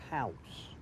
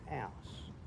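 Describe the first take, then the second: First: It is said in a standard English accent. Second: It is said in a Cockney accent. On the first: "In English, you say" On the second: "In Cockney, we say"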